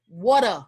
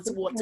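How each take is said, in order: First: The middle consonant sounds like a soft D. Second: The middle consonant is a clear T sound. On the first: Someone else said it in the American way. "the girl said" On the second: The speaker insists on the British way. "It has T in it"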